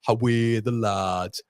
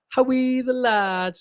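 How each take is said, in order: First: Slow Geordie cheer at normal pitch; attempted Geordie accent. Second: High, drawn-out Sunderland cheer; attempted Sunderland accent. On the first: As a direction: draw out the Geordie "How are the lads". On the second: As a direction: push the Mackem cheer way up high. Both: Shown as a demonstration. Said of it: "Is there a difference there?".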